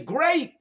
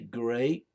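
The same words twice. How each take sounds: First: It is said excitedly, with strong inflection. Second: It is said flatly, without lively inflection. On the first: It is an exclamation. The speaker calls it right. "You say" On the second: It is not an interjection. The speaker calls it wrong. "You don't say"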